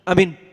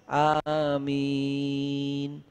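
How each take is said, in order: First: The word is said hastily and changed. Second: The word is said clearly and carefully. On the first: The speaker calls it wrong. "Udah beda" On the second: The speaker calls it right. "masih benar dan jelas"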